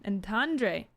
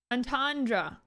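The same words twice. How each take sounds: First: "entendre." said as "on-TAHN-dray", an unsure guess; "entendre." stumbled out as "on-TAHN-dray"; fumbled pronunciation. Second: "entendre." said firmly as "on-TAHN-druh", falling at the end; "entendre." in a sure, falling "on-TAHN-druh"; settled pronunciation. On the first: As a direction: feel your way into "entendre." as "on-TAHN-dray", not yet sure. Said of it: "Am I saying it right?". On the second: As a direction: land "entendre." as "on-TAHN-druh", confident now. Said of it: "There we go". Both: Shown as a demonstration.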